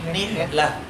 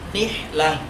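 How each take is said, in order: The two takes are said the same way.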